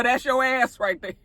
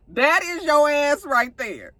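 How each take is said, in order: First: Said in the usual way. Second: Slow, each word pressed with weight; slow emphatic repeat. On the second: Real, not acted. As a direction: spell it out slowly so it lands.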